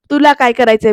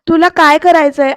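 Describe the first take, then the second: First: Mocking echo. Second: Louder, higher demand; angry challenge. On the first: Aarti mocking Pruthvi's question back at him. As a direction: mimic his words back at him. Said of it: "तर आरती म्हणते". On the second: Retold or imitated. Pruthvi challenging Aarti, angry and loud. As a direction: fling the question at her.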